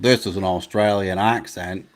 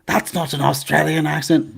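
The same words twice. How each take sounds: First: A lightly done Australian accent. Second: Higher, louder Australian accent; mock Australian accent. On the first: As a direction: demonstrate the proper Aussie way. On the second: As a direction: show off a hammed-up Australian accent. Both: Shown as a demonstration.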